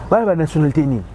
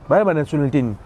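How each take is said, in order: Both takes have the same delivery.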